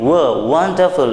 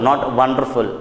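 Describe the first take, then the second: First: The first sound is made with rounded lips. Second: The first sound is made biting the lower lip. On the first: The speaker calls it right. "you make your lips round and say" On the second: The speaker calls it wrong.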